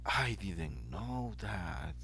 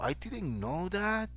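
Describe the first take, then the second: First: The phrase is said with a delighted, pleased tune. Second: The phrase is said with surprised pitch variation. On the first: The speaker is pleased by the news. "express delight with it" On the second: The speaker is amazed by the news. "When you say that"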